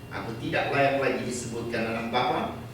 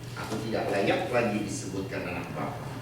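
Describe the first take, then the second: Both takes have the same delivery.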